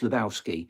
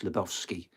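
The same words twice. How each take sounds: First: The name is said the American way. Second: The name is said the Polish way.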